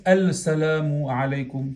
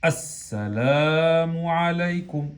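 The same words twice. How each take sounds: First: "Al salamu alaykum" with the L wrongly sounded before s; unfused lam. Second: "As-salamu alaykum" slow and drawn out, doubled s, no L; fused lam. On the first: Teacher showing what we don't say, L left unfused. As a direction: keep a separate L in "Al salamu alaykum". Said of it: "No decimos". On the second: Teacher showing what we do say, slow fused lam. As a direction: stretch "As-salamu alaykum", merging the article into s. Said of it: "¿Qué decimos?". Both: Shown as a demonstration.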